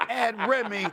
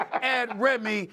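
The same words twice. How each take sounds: The two takes are said the same way.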